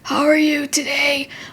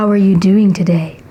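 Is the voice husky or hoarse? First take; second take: hoarse; husky. First: The voice is hoarse and croaky, like a cold. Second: The voice is husky.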